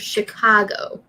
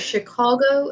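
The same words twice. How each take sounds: First: The middle vowel sounds like A. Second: The middle vowel sounds like O. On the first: "you can say it with A" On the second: "you can say it with O"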